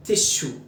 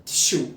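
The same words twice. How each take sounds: The two takes are said the same way.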